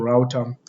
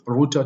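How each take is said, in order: First: The first vowel sounds like 'ow' in 'out'. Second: The first vowel sounds like 'oo' in 'root'. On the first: This is the way people told the speaker to say it. The speaker calls it right. "to router" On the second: This is the way the speaker has been saying it. The speaker calls it wrong. "I'm trying my best to change from router"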